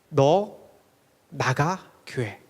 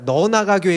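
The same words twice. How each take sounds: First: Each word is separated by short pauses. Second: The words run together without pauses. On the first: It lists you, me, family and church. The speaker calls it right. "이렇게 한번 해봐요" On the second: It tells someone to get out of the church. The speaker calls it wrong. "이렇게 하시면 안 되고요"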